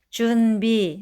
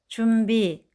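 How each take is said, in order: First: The first syllable's final consonant is kept distinct. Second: The first syllable's final consonant blends into the next. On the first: The speaker calls it right. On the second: The speaker calls it wrong.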